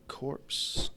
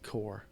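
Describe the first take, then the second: First: The word ends with audible P and S sounds. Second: The word ends without any P or S sound. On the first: The speaker calls it wrong. "I keep calling that core corpse" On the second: The speaker calls it right. "the P and S are silent"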